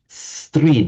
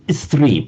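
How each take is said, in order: First: The word begins directly with the s sound. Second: A short vowel is added before the s. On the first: "in Sanskrit is just stri, beginning with the s" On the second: "put a little e in, in front of it"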